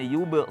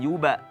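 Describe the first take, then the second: First: The final b is clipped with no vowel after. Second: The final b is followed by a full 'a'. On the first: The speaker calls it right. "harusnya yuba sirun" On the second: The speaker calls it wrong. "jangan yuba ya, seperti berharokat fathah"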